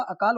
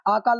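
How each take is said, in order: First: अकाल said with a short neutral "uh" at the start, uh-kaal; the right spelling spoken aloud, अकाल beginning with a light short "uh"; correct short first vowel. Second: आकाल said with a long open "aa" at the start, aa-kaal; wrong long first vowel. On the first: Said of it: "अकाल होता है". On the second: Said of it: "आकाल नहीं होता". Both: Shown as a demonstration.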